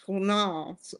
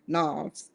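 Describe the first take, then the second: First: Unsure try at Knauss with the K sounded. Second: "Knauss" said as NOSS with a silent K. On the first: Vlogger trying out a surname she can't pronounce, K sounded in Knauss. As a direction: say "Knauss" as kuh-NOSS. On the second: Vlogger correcting her guess at a surname, silent K in Knauss. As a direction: drop the K in "Knauss", start on N. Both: Shown as a demonstration. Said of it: "The K is probably silent".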